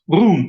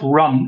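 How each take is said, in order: First: The vowel is long, like in 'moon'. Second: The vowel is short, like in 'sun'. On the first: The speaker calls it right. "it's rune, right?" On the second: The speaker calls it wrong. "It's not run"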